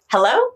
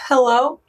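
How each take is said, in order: First: It is said smiling and happy. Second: It is said in a sad, drooping way.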